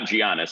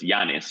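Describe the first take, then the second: First: The name is said with an Americanized pronunciation. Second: The name is said with a Greek pronunciation. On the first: The speaker calls it wrong. "It's not Giannis" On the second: The speaker calls it right. "It's Giannis. It's Greek for John"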